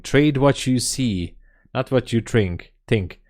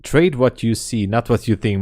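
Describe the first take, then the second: First: Slow, weighty proverb voice; solemn maxim. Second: Said in the usual way. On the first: Shown as a demonstration. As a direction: intone it like wise old advice. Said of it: "evergreen sayings in trading". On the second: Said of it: "one of the evergreen sayings".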